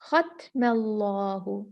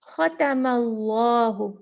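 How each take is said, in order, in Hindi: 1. 'त' की आवाज़ के बाद कोई स्वर नहीं है। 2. 'त' की आवाज़ के बाद 'अ' स्वर आता है। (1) "हमने ता को सुकून दे दिया" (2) "ता पे फ़तहा है, ज़बर है"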